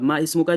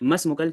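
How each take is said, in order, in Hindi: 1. दोनों शब्द अलग-अलग बोले गए हैं। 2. दोनों शब्द जल्दी-जल्दी एक साथ मिलाकर बोले गए हैं।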